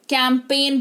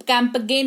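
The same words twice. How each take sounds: First: कैंपेन with the g silent; correct pronunciation. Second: कैंपगेन with the g sounded; wrong pronunciation. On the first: Teacher giving the right form: कैंपेन, g silent. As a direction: say कैंपेन, no g sound. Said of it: "कैंपेन पढ़ते हैं इसको". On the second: Teacher repeating the wrong form: कैंपगेन with a g. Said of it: "कैंपगेन नहीं". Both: Shown as a demonstration.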